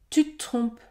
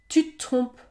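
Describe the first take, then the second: No difference in how they are said.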